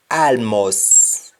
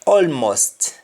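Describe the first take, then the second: First: ALMOST as "aalmos", no T; Jamaican pronunciation. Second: ALMOST as "olmost", T sounded; English-style "awlmost" for ALMOST; English pronunciation. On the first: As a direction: open "ah" and dropped T in ALMOST. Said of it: "we say al". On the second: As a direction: round first vowel, final T in ALMOST. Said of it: "instead of saying all". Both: Shown as a demonstration.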